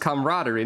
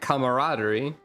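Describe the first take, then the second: First: The word is said with one syllable fewer. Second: The word is said with one extra syllable. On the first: The speaker calls it wrong. "I thought it was camaraderie" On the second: The speaker calls it right. "There's another syllable in there?"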